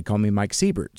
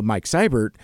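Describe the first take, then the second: First: Siebert said SEE-bert, first vowel as in see; wrong name. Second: Seibert said SIGH-bert, first vowel as in eye; correct name. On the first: Host mimics the common mistake: Siebert as SEE-bert. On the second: Host says his own name right: Seibert as SIGH-bert. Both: Shown as a demonstration. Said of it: "most people pronounce my name incorrectly".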